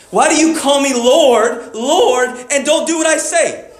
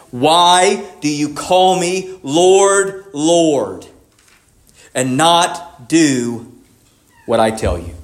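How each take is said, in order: First: Higher-pitched, pressing rebuke; cutting challenge. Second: Very slow, weighted, word by word; provoking question. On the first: Preacher voicing Jesus confronting the crowd, raised and challenging. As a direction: drive the question home where it hurts. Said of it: "he hits it where it hurts". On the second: Preacher quoting Jesus' question to his followers, slow and provoking. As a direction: pause deliberately between phrases, sinking lower at the end. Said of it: "Jesus gives this provoking question". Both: Retold or imitated.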